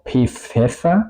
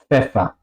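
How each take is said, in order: First: The p is said separately before the f. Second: The p and f are joined into one sound. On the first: The speaker calls it wrong. "No voy a decir algo como P Pfeffer" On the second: The speaker calls it right. "yo digo Pfeffer"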